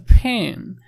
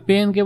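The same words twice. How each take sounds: First: "ফেন" with a strongly aspirated p at the start; foreigner's English pronunciation. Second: Said in the usual way. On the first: Shown as a demonstration. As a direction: hit the start of "ফেন" with a hard puff of air. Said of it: "বিদেশি এসে বলতেছে". ("ফেন" শব্দের শুরুতে জোর দিয়ে সাহেবি উচ্চারণ) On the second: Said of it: "পেনকে বলতেছে ফেন".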